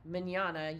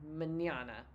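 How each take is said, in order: First: The middle consonant is a 'ny' sound. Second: The middle consonant is a plain 'n' sound. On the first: The speaker calls it right. "instead of like mañana" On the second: The speaker calls it wrong. "you maybe says like mañana"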